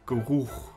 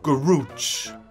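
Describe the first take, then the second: First: It is said with the original German pronunciation. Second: It is said as an Americanized borrowed word. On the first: "the German word Geruch" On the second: "Garooch comes from the German word Geruch"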